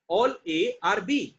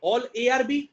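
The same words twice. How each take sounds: First: "all A are B" drawn out slowly and pitched higher; slow emphatic reread. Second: Said in the usual way. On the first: Shown as a demonstration. Teacher rereading the conclusion to students, slowly and higher. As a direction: stretch every word, lifting the voice. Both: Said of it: "teacher contrasts two readings".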